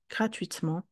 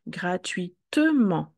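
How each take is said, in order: First: The word is said at normal speed. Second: The word is said slowly and carefully.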